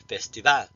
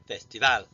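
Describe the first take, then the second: First: The stress falls on the last syllable. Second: The stress falls on the last syllable.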